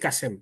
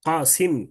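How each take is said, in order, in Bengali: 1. দ্বিতীয় স্বরধ্বনিটি 'e'। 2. দ্বিতীয় স্বরধ্বনিটি 'i'। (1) "আমরা বলি কাসেম" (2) "আসলে উচ্চারণ কি কাসিম"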